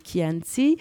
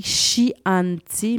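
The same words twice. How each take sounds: First: Chianti with a hard K sound at the start, the Italian way; Italian pronunciation. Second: Chianti read slowly the French way, with a "sh" at the start; spelled-out French reading. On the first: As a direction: say Chianti as "Kianti". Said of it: "mais on dit Chianti". (Chianti prononcé « Kianti » à l'italienne) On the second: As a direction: say Chianti with a "sh" as it is written. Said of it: "ça s'écrit Chianti, mais on dit". (Chianti lu à la française, avec « ch ») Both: Shown as a demonstration.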